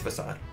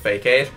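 First: It is said as fuh-sahd, ending in sahd. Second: It is said like the two words fake aid. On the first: The speaker calls it right. "it's Facade" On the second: The speaker calls it wrong. "I used to always pronounce it Fake Aid"

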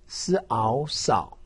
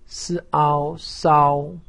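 First: The pitch dips low, then rises. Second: The pitch stays high and level. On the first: "三声" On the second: "一声"

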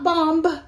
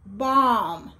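First: A b sound is heard at the end. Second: No b sound is heard at the end. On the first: The speaker calls it wrong. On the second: The speaker calls it right.

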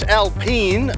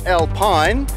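First: The word is given a French pronunciation. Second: The word is given an English pronunciation. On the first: The speaker calls it right. "Now it's Alpine" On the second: The speaker calls it wrong. "not Alpine"

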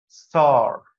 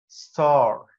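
The two takes are said the same way.

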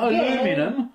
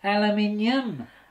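First: It is said in an American accent. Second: It is said in a British accent. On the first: The speaker calls it wrong. "Not aluminum" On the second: The speaker calls it right. "That's not American"

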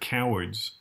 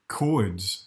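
First: The word is said in two full syllables. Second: The word is squeezed into one syllable.

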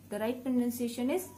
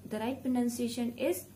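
No difference in how they are said.

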